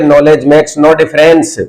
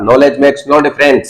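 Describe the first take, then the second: First: Even slower, relaxed and spaced; slow down and say it calmly. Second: Slow, each word spaced out; slow model sentence. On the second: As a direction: say it slowly for the class. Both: Shown as a demonstration. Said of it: "अरे आराम से बोलिए".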